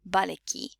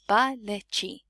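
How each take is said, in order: First: The ending is said in reduced, natural form. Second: Each letter is sounded out as spelled. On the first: This is how it is really said. The speaker calls it right. "You would pronounce it actually in Afrikaans like" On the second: It helps you remember the spelling. The speaker calls it wrong. "You would you not really pronounce it like that, but it just helps you uh, spell it better"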